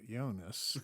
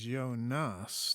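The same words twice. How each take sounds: First: The stress is on the first syllable. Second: The stress is on the second syllable. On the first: The speaker calls it wrong. "not Jonas" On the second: The speaker calls it right. "emphasis on the second syllable"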